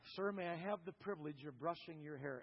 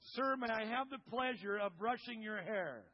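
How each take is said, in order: First: It is said quietly. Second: It is said loudly.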